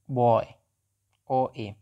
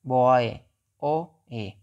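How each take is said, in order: Both takes have the same delivery.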